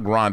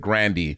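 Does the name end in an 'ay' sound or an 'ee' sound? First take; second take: ay; ee. First: The name ends in an 'ay'-like vowel. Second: The name ends in an 'ee'-like vowel. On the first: This is how most people say the name. The speaker calls it wrong. "Her last name is not [name]" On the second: This is how the name is really pronounced. The speaker calls it right. "it's Grandy"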